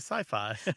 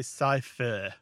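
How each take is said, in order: First: The second syllable sounds like 'fie'. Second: The second syllable sounds like 'fick'. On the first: The speaker calls it right. "We say sci-fi" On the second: The speaker calls it wrong. "We don't say sci-fi"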